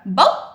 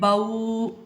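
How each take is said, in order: First: The syllable ends with an abrupt jerk. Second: The vowel is stretched out long. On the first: "हमने झटका देके नहीं पढ़ा" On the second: "इनको हमने बाऊ खींचा नहीं है"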